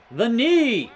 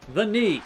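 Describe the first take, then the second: First: Sharp cry at the knee hit; pained surprise. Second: Said in the usual way. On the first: Real, not acted. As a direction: yelp as the knee lands. Reacts to knee hit in game.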